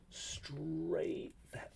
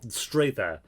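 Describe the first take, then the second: First: Breathy whispered repeat. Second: Said in the usual way. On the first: Shown as a demonstration. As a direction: whisper it to yourself in disbelief.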